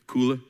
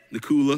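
First: "Cooler" in a light New York accent; "Cooler" again the New York way, clipped. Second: "The cooler" with a New York accent, louder. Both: Shown as a demonstration. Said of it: "That's how they say it in New York".

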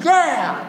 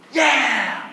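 First: A much higher, louder yeah; excited cheer. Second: A modest, lightly raised yeah; cheer, but hold back a little; half-hearted cheer. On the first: Preacher shows the congregation a full excited cheer. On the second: Preacher prompts the congregation with a mild cheer. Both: Shown as a demonstration. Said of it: "your excitement is still lacking".

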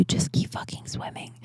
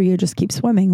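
First: Fierce whisper to herself; hushed whispered mantra to herself; self-pep whisper. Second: Said in the usual way. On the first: Shown as a demonstration. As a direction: whisper it as a private pep talk. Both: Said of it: "I needed to hear that for myself".

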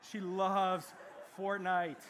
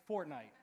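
First: Fortnite punched out louder; stress on Fortnite. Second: Said in the usual way. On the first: Shown as a demonstration. Preacher repeats the game's name to the congregation, louder and emphatic. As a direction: lean hard into loves Fortnite.

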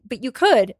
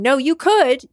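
First: Said in the usual way. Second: Higher, louder mock listener protest; pushing back as a doubtful listener; imagined listener objecting. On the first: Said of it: "And it's true". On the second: Voicing a doubting podcast listener, higher mock protest. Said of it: "some of you listening right now might be thinking".

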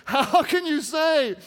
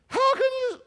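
First: Loud, slow, pitched-up man's voice; man voice for Delilah. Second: Very high, cracking falsetto; failed woman voice. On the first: Preacher reading Delilah's line in man voice, loud complaint. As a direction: plead it loudly without falsetto. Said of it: "Let's just stick with the man voice". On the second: Preacher reading Delilah's line, bad woman voice. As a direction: squeak out a badly faked woman. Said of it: "my woman voice isn't working very good". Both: Acted.

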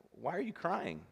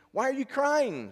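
First: Soft, higher-pitched question; concerned father. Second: Very high, loud, drawn-out question; baffled father. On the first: Father gently asking his daughter about tears, concerned. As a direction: ask gently, voice lifted. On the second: Father asking the crying girl once more, baffled. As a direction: stretch it out high in bewilderment. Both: A narrator's reading.

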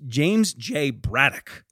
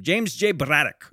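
First: Said in the usual way. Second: Bad Irish accent. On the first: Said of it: "I think that's an Irish name". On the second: Shown as a demonstration. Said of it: "Sorry for the bad Irish accent".

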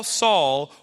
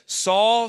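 First: Second Saul dropped back to normal pitch; voice of Jesus calling. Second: First Saul called out higher and louder; voice of Jesus calling. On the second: Jesus calling down to Saul, raised call. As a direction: call the name out from heaven. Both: Retold or imitated. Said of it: "he heard a voice saying to him".

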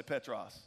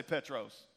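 First: Petros said as PET-rahs; Greek word for bedrock. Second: Petros with the ending said "ohs"; Petros, long o in the last syllable; Greek word Petros. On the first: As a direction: open "ah" in the last syllable of Petros. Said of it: "Now, this word Petros meant". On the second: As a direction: say Petros as PET-rohs. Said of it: "the Greek word is Petros". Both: Shown as a demonstration.

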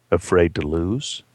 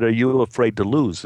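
First: Slow, low muttered challenge. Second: Said in the usual way. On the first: Acted. Gambler challenging a man who won't gamble, low mutter. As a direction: mutter it as a drawn-out taunt. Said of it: "Freddie muttered". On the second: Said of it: "He said".

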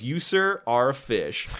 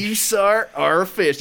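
First: Lightly imitated game catchphrase, lifted on "You, sir"; understated mock address to a caught fish; Arthur Morgan. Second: Higher, put-on cowboy imitation; exaggerated copy of another man's catchphrase; mock address to a fish, pitched up throughout; John Marston. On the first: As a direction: quote the cowboy's line, settling down on "fish". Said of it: "Arthur Morgan says is when he catches a fish". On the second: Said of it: "he says it differently".

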